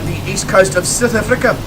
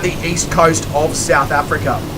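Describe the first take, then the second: First: It is said in a South African accent. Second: It is said in the speaker's usual accent. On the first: The speaker calls it right. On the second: The speaker calls it wrong.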